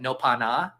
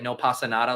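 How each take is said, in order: First: Every word is cut off halfway. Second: Every word is said in full. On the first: "they would say it like that, where they would just like cut off every word like halfway" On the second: "the phrase like"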